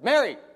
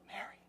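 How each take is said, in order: First: The name is shouted loudly. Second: The name is said quietly.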